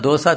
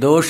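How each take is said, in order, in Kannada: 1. ಮಧ್ಯದ ವ್ಯಂಜನ ಸರಳ 's' ಶಬ್ದ. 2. ಮಧ್ಯದ ವ್ಯಂಜನ ಒಂದು 'sh' ಶಬ್ದ. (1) "ದೋಸ ತದ್ಭವ" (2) "ಶಕಾರ ಉಚ್ಚಾರ"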